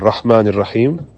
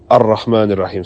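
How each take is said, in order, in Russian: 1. Начальное r одиночное. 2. Начальное r удвоено.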